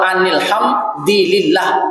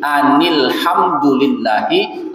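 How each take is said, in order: First: The vowel after 'hamd' is an 'i'. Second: The vowel after 'hamd' is a 'u'. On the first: The speaker calls it wrong. "Kalau anil ham dilillah, bukan dulillah" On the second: The speaker calls it right. "Ini anil hamdulillahi rabbil alamin"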